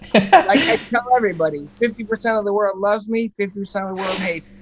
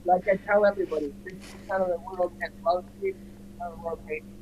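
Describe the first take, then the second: First: It is said louder. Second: It is said at normal volume.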